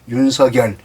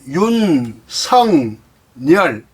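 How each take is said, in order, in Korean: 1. 가운데 음절은 seo-gyeol처럼 들리며, k가 연음되어 있습니다. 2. 가운데 음절은 seong-nyeol처럼 들리며, ng와 n이 들어 있습니다. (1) "윤석열 해야 맞습니다" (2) "이영 니은으로 발음을 하고"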